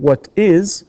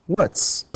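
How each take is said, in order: First: Said in the usual way. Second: "What's" squeezed into one clipped syllable; contraction. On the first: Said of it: "Instead of saying here". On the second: Shown as a demonstration. Teacher showing the contracted form. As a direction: say "What's" as a single short word. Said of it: "we say".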